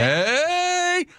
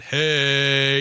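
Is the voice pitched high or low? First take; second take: high; low. First: It is said loudly at a high pitch. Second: It is said at a lower pitch. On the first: The speaker calls it right. "You want to get the higher octaves, that actually is louder and it projects further" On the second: The speaker calls it wrong. "it's not hey"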